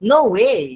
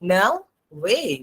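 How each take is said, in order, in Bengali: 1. 'no' শব্দের স্বরধ্বনিটি বিশুদ্ধ o। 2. 'no' শব্দের স্বরধ্বনিটি 'ow'-এর মতো গ্লাইড করে। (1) "এটা কিন্তু নো না" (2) "উচ্চারণ হবে নাও"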